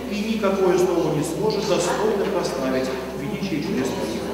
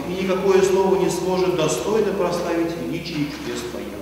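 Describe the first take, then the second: Both takes have the same delivery.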